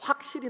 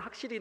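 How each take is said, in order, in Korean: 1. 이 단어는 신중하고 또렷하게 발음됩니다. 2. 이 단어는 느슨하고 불분명하게 발음됩니다. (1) "제가 되게 신경 써야가 확실히 나오지" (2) "신경 안 쓰면 그냥 확실히 나 이렇게 나와요"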